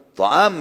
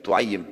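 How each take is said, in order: First: "To'am" with an open a after the first consonant; base form with fathah. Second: "tu'ayyim" with u first and a doubled y; diminutive form. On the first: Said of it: "diganti fathah pertama menjadi dhammah". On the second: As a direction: say "tu'ayyim", rounded first vowel, then -ayyim. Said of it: "ditambah ya juga". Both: Shown as a demonstration.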